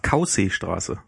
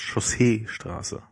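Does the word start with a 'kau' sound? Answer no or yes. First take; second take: yes; no. First: The first part is said like 'kau'. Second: The first part is not said like 'kau'. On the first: This is how the navigation voice reads it. The speaker calls it wrong. "Chaussee wird halt als Kau und dann See hinten dran" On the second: This is how the word should be said. The speaker calls it right. "statt Chaussee-Straße"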